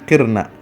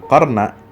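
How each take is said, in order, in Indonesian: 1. Vokal pertama adalah bunyi 'i' tertutup. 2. Vokal pertama adalah bunyi 'a' terbuka. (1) "tapi qirna" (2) "Jadi bukan qarna"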